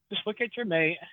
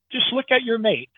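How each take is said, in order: First: Quietly repeated, much softer. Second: Said in the usual way. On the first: Shown as a demonstration. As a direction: drop the voice on the repeat. Repeating marriage advice softly.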